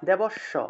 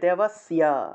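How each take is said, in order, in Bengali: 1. s-এর দ্বিত্ব হয়, y ধ্বনি আসে না। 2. s-এর পরে y ধ্বনি আসে। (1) "এভাবে উচ্চারণ করে ফেলি দেবস্য" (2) "জফলার উচ্চারণ হলো ইয়"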